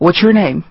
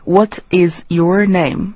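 First: The words run together in one linked stream. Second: Each word is said separately and clearly. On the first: The speaker calls it right. "它其实就是一个连读" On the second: The speaker calls it wrong. "那很清楚，然后但是呢，这样的说话就会显得怪怪的"

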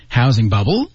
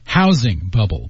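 First: The stress falls on the word bubble. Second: The stress falls on the word housing. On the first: "sometimes contrastive stress gets added to the second noun" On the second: "most of the time when we say these two words, we say housing bubble because they're two nouns"

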